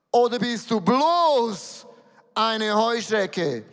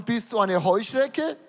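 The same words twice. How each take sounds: First: Slow, with bloß leaned on loud and long; stress on bloß. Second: Said in the usual way. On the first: Shown as a demonstration. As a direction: drag out bloß to belittle the locust. (Betonung auf bloß, langsam und gedehnt)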